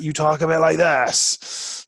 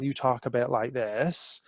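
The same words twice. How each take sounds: First: Hammed-up pirate, louder and slow, drawn out. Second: Light Bristol West Country accent, slowed a touch; a gentle hint of local Bristol burr. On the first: Speaker showing how pirates talk, slow loud hammed-up pirate voice. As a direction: growl it like a jolly stage pirate. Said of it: "if you're a pirate". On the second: Speaker showing the audience how Bristol locals sound, light Bristol accent. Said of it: "if you're a local from Bristol". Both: Shown as a demonstration.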